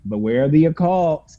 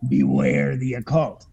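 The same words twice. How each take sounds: First: The title is said in a mocking, sarcastic tone. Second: The title is said in a grave, ominous tone. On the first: The danger is not taken seriously. The speaker calls it right. "someone saying it sarcastically, like" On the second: The danger is meant as a real warning. The speaker calls it wrong. "not like"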